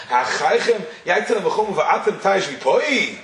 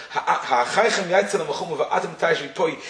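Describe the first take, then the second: First: Slow, shocked rising question, stress on "v'poi"; shocking question. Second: Said in the usual way. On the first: Shown as a demonstration. Rabbi showing how the Rebbe read Moshe's rebuke, shocked. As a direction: read "Ha'achaychem yaitzel ha'machumu va'atem taish v'poi?" as an incredulous challenge. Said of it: "read it as the shocking question that Moshe asked". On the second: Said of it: "he would read it as the shocking question".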